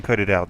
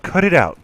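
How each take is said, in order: First: Said in the usual way. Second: "Cut it out" dilucurkan keras dan tegas sebagai teguran; firm cut it out. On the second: Shown as a demonstration. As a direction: snap "Cut it out" like a scolding. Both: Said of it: "Just imagine me saying".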